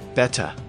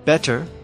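First: The final R is dropped. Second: The final R is pronounced.

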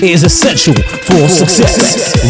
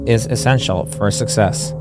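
First: It is said with lively, forceful energy. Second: It is said flatly with little energy. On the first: The speaker calls it right. "put some oomph in your voice" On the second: The speaker calls it wrong. "Put some energy in it"

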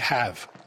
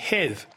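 First: It is said in the speaker's plain accent. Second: It is said in the Queen's aristocratic accent.

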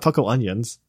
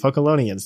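First: It is split into two words, like 'puckle onions'. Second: It is said smoothly as one single word. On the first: The speaker calls it wrong. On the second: The speaker calls it right. "what it's supposed to be"

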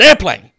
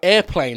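First: The word is said loudly, like an exclamation. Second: The word is said in a plain, flat way.

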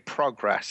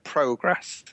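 First: It is said with an American pronunciation. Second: It is said with a British pronunciation. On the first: The speaker calls it wrong. "one word that I do say the American way" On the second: The speaker calls it right. "which is how I should say it"

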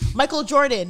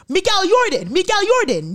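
First: The name is said with a plain, ordinary pronunciation. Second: The name is said with an odd, foreign-sounding accent.

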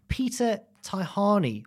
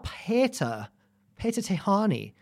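First: The name is said with English-style pronunciation. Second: The name is said with German-style pronunciation.

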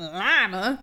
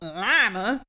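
First: It is said with an exaggerated country accent. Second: The same.

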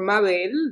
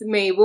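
First: The name is said with a Spanish pronunciation. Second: The name is said with an English pronunciation.

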